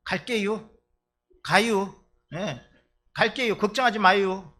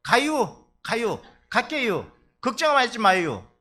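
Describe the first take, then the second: First: Cheerful empty promise, raised voice; mock Chungcheong elder. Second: Loud, higher breezy promise, slow in the middle; mock Chungcheong elder. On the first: Preacher imitating an elder who promises to come, loud breezy reassurance. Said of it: "이러면". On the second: Preacher imitating the elder again, louder, carefree empty promise. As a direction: brush off the worry with a cheery yes. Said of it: "그러니까".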